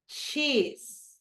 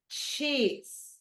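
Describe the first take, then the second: The two takes are said the same way.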